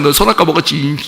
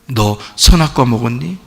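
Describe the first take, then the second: First: It is said in an angry, scolding tone. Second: It is said in a gentle, sorrowful tone.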